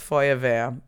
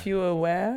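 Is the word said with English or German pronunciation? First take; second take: German; English. First: It is said with German vowels and sounds. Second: It sounds like the English words fewer where. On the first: The speaker calls it right. "And it's Feuerwehr" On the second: The speaker calls it wrong. "You said fewer where?"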